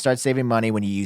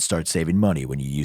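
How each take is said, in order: First: It is said in an ordinary speaking voice. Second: It is said in a put-on radio announcer voice.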